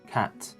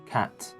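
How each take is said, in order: No difference in how they are said.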